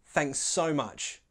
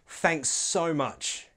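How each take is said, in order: No difference in how they are said.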